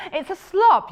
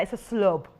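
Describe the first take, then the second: First: "slob" with an open "ah" vowel; louder "slob", rhyming with "blob". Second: "slob" said as "slub"; short U vowel. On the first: Presenter playing with the fabric term, "slob" with an open vowel. Trying out two vowels in slub. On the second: Presenter playing with the fabric term, "slob" turned into "slub". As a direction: make "slob" rhyme with "club". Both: Real, not acted.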